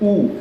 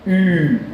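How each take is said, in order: First: A plain rounded u vowel is said. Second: An i vowel is said with rounded lips. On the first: "la U se dice así" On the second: "con la boca de la U, pero haciendo una I"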